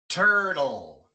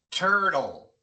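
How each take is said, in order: The two takes are said the same way.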